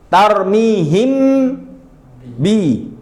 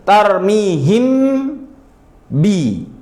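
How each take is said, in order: The two takes are said the same way.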